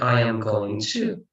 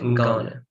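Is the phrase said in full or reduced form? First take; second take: full; reduced. First: Every word is said fully and separately. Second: The words are contracted and run together. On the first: The speaker calls it wrong. "You don't say I am going to" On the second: The speaker calls it right. "They say I'm gonna"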